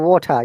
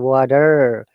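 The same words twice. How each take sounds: First: It is said with a British accent. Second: It is said with an American accent. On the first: "This is British accent" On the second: "They'll say water"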